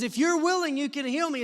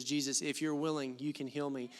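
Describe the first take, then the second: First: Fresh urgent reading. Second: Flat familiar reading. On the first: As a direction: read it like it just jumped out at you. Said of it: "let me tell you how I read it". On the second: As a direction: lower and softer, offhand and routine. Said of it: "This is how I've always heard this verse". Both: Shown as a demonstration.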